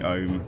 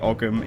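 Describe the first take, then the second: First: No g sound; it sounds like ohm. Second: A hard g sound is heard mid-word. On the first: The speaker calls it right. "It's actually Ohm" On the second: The speaker calls it wrong. "we can't say Ogham"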